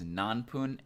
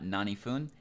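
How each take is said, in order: First: It has no ni in the middle and a p sound. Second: It has ni in the middle and an f sound. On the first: The speaker calls it right. "It is nanpun" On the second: The speaker calls it wrong. "is not nanifun"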